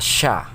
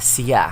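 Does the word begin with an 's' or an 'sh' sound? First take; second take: sh; s. First: The word begins with an 'sh' sound. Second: The word begins with an 's' sound. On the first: "the s sound is substituted or changed into sh sound" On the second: "it must be pronounced as siya"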